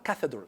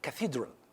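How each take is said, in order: First: The stress is on the first syllable. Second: The stress is on the second syllable. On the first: The speaker calls it wrong. "It's not cathedral" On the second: The speaker calls it right. "the stress on the second"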